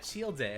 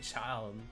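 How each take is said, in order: First: It does not sound like the word child. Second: It sounds just like the word child. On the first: The speaker calls it wrong. "in my mind I'm like, oh yeah, Childe" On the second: The speaker calls it right. "no, it's like it's like child"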